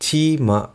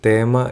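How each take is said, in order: First: The word begins with a plain 't' sound. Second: The word begins with a 'th' sound. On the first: "ഇവിടെ ചീമ എന്നാണ് അവർ പറയുന്നത്" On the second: "നമ്മൾ ഇംഗ്ലീഷിൽ പറയുന്നത്"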